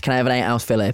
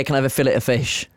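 First: "fillet" said as FILL-ay; "fillet" the French way, FILL-ay; silent T. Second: "fillet" said as FILL-it; "fillet" rhyming with skillet; sounded T. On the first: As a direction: end "fillet" on an ay sound, no T. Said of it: "you don't pronounce the T". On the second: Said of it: "but I'd always say". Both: Shown as a demonstration.

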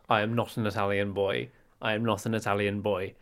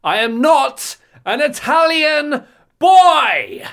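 First: Measured, lower British delivery; understated British denial; very British accent. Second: High, slow, drawn-out bellow; full-volume hammed-up denial; huge indignant shout. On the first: Acted. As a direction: say it politely in a restrained British accent. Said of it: "in your very British accent". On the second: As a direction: shout it out word by word, stretching the last. Escalating mock denial on the bus.

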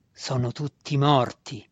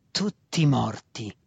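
First: Slow, mildly mocking announcement; taunting. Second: Very slow, menacing growl; snarling. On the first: Faceless master telling the student of his family, taunting. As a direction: draw it out as a taunt. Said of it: "lo schernì senza volto". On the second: Faceless master driving the cruel news home, snarling. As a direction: growl it out, dragging both words. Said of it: "ringhiò ancora una volta". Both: A narrator's reading.

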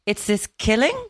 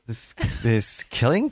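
First: Rising questioning lilt on killing, lightly mocking; imitating upspeak. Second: Questioning upspeak. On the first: Mimicking partner's rising tone, a light upward lilt. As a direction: echo it back with a lift at the end on killing. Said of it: "I like the way you just went up there". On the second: Shown as a demonstration. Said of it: "questioning inflection at the end of all my sentences".

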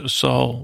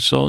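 First: "Saul" said right, as "Sawl" with no t at the end; corrected name. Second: "Saul" said as "Salt", with a t sound at the end; slip: "Saul" comes out as "Salt"; Saul misspoken as Salt. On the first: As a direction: fix the slip and say "Saul" cleanly. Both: Real, not acted. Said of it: "what, did I say Salt?".

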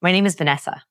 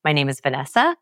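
First: VANESSA falling at the end as a statement; settled drop in pitch on VANESSA; stated, not asked. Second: VANESSA rising like a question; question inflection. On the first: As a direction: state your name, bringing VANESSA down. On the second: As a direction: ask your own name, voice lifting on VANESSA. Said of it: "don't ask". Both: Shown as a demonstration.

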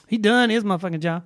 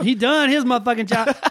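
First: Relaxed Black Southern accent; African American accent. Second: Black Southern accent, pitch up a bit; African American accent. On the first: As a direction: say it like a Black auntie. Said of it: "No, that's a black voice". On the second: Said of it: "There's my black voice". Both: Shown as a demonstration.

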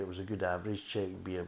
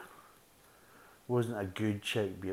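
First: "average" given the weight, said evenly; corrective stress on average. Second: Wasn't drawn out slowly and hit hard; stress on wasn't. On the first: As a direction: correct yourself by leaning on "average". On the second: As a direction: lean on "wasn't", slow the whole line down. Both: Shown as a demonstration.

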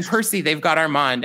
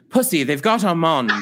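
First: Said in the usual way. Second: "Pussy" said with a rounded vowel in place of "Percy"; comic stage-British "Pussy"; mock British mispronunciation. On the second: Shown as a demonstration. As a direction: slur "Percy" into "Pussy", a bit louder. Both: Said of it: "And here's how I did it".

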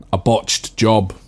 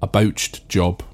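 First: "botched" in its modern form, short vowel, said slowly; usual "botched". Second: "bouched" like the surname Bouch plus t, said slowly; original "bouched" pronunciation. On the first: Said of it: "heard of a saying". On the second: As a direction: say "bouched" with an ow sound, as in "pouched". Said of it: "which eventually changed to botched job". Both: Shown as a demonstration.

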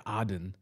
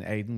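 First: Aden said the Arabic way, as locals say it; Arabic pronunciation. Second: Said in the usual way. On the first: Shown as a demonstration. Comedian correcting the British name, Arabic Aden. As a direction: give Aden its Arabic sound. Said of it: "If you're Arabic, it's Aden". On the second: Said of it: "which is in fact Aden".

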